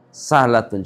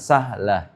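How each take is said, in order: First: The word ends with a full 'tun' ending. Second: The word ends with a short clipped 'ah'. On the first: "Kalau bentuk muannasnya sah sahlatun"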